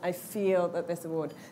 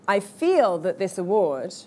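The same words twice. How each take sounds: First: The pitch stays flat without a hook. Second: The pitch goes up and down like a hook. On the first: The speaker calls it wrong. "rather than" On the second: The speaker calls it right. "so for example here"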